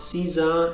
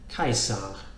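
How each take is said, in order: First: It starts with an S sound. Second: It starts with a K sound. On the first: The speaker calls it wrong. "So it's not Caesar" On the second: The speaker calls it right. "note the K sound here"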